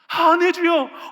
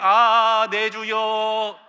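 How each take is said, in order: First: It is said with fear and alarm. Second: It is said flatly, without emotion.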